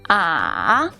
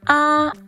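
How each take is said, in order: First: The pitch dips down and then rises. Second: The pitch stays high and level. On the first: "ah is the third tone. The third tone falls first and then rises" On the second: "ah is the first tone. The first tone is the highest"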